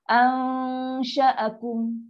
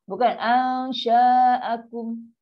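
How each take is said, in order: First: The vowel after sh is short. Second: The vowel after sh is long. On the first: The speaker calls it right. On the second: The speaker calls it wrong. "ramai kita dengar orang baca sya ni panjang"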